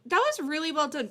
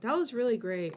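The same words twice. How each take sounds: First: Loud, higher, earnest praise; emphatic praise. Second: Said in the usual way. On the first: Real, not acted. Streamer praising the guest's honesty, loud and heartfelt. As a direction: pour real enthusiasm into the compliment.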